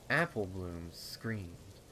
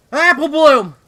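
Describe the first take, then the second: First: Said in the usual way. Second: A desperate, high cry of the name "Apple Bloom!"; panicked scream. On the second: Acted. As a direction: scream her sister's name at full volume.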